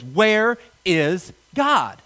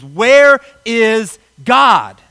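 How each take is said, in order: First: It is asked in a sterner tone. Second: It is asked in a loud, raised voice.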